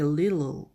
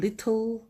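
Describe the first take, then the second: First: The t is pronounced as a soft flap. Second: The t is pronounced as a clear t. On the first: "미국식 발음은 t를 가능한 t 소리를 내지 않습니다... 거의 우리 한글의 리을 발음을 합니다" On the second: "영국식 발음은 little 알파벳을 그대로 소리를 내지만"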